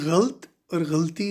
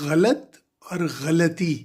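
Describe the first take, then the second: First: No vowel follows the l sound. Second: A short vowel follows the l sound. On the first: The speaker calls it wrong. "ये गलत है" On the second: The speaker calls it right. "ये दुरुस्त है"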